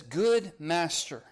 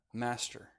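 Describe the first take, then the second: First: GOOD and MASTER slowly drawn out, GOOD stressed; both words "Good master" given full, deliberate weight; reverent full address. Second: "Master" dropped softly, without emphasis; understated, much softer "Master" that falls away; diminished address. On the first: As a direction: hail him grandly with a long, stressed "Good master". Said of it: "calls him good master". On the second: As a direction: say a bare, subdued "Master". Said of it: "Now he's just master?". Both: Retold or imitated.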